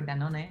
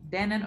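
First: The name is pronounced the Spanish way. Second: The name is pronounced the English way.

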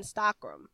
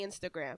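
First: The word is said with a French accent. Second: The word is said with an American accent. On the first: "I've heard a French person say Instagram" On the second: "because that's how us Americans say it"

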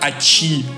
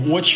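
First: The stress is on the second syllable. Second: The stress is on the first syllable. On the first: The speaker calls it right. "у них «очи»" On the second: The speaker calls it wrong. "У них не «очи»"

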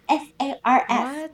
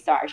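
First: The acronym is spelled out letter by letter. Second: The acronym is said as a single word. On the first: "She said S-A-R-S" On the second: "She wouldn't say SARS"

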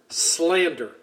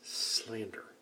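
First: The word is said much more loudly. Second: The word is said at normal volume.

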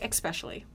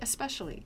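First: The word begins with an 'ex' sound. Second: The word begins with an 'es' sound. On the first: The speaker calls it wrong. "Like E-X?" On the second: The speaker calls it right. "just say especially"

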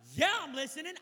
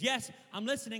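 First: It sounds impatient and exasperated. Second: It sounds respectful and fully attentive.

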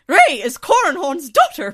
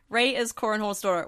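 First: It is said in a put-on Hoha's voice. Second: It is said in the speaker's own voice.

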